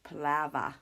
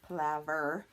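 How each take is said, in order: First: The word ends with an 'ah' sound. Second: The word ends with an 'er' sound. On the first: "they say ah. So it's Palova Palava" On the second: "in New Zealand they don't say it er"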